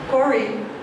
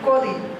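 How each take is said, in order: First: The middle consonant is an r sound. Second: The middle consonant replaces r with t-like sound. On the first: This is the common Kerala form. "instead of saying uh" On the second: "they would say"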